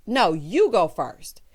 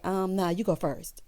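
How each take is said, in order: First: Slow, louder mock of his dodge; sarcastic slow parrot; mocking repeat. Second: Said in the usual way. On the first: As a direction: drag it out to mock him. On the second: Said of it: "He gonna say".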